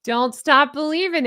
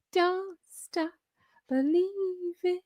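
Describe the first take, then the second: First: Said in the usual way. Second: Soft, high sung snippet, last word held. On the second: Shown as a demonstration. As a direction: croon the rock lyric high and softly. Sings the Journey song to viewers.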